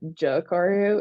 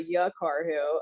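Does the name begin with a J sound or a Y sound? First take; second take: J sound; Y sound. First: The name begins with a J sound. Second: The name begins with a Y sound. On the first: The speaker calls it wrong. "I was pronouncing the J" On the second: The speaker calls it right. "learned that one pretty quick"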